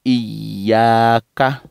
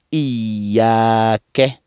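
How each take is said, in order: First: "iyaka" drawn out, ending in an open a; "iyaka" as iyyaa-ka, y pressed. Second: "iyake" drawn out, ending in an e sound; "iyake" as iyyaa-ke, y pressed. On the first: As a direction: end "iyaka" on a short ka. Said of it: "Ou bien iyaka". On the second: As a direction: end "iyake" on a short ke. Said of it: "on va prononcer iyake". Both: Shown as a demonstration.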